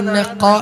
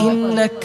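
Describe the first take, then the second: First: The k is a deep throat qaf sound. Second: The k is a light front kaf sound. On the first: The speaker calls it wrong. "ഇന്നഖ എന്നല്ല" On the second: The speaker calls it right. "ഇന്നക എന്നാണ്"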